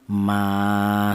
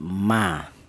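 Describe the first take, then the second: First: The vowel is held for two beats. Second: The vowel is held for one short beat. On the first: "dipanjangkan dua harokat atau dua ketukan" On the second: "dibaca pendek"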